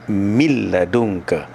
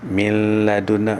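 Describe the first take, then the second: First: The n merges fully into a doubled l. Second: A slight n sound is kept before the l. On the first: The speaker calls it right. "Yang betulnya min ladunka" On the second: The speaker calls it wrong. "masih ada nun sikit lagi. Tak betul"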